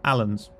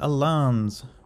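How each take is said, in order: First: It sounds like the name Alan. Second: It does not sound like the name Alan.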